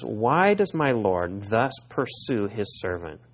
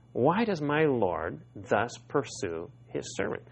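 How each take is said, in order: First: Slow, falling, deliberate reading; slow pleading question. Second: Softer repeat, rising at the end; softer wondering question. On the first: Preacher reading David's plea to Saul, slow and falling. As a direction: lay out the question slowly, falling at the end. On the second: Preacher echoing David's question to Saul, softer and rising. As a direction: ask it again quietly, lifting the end. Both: Shown as a demonstration.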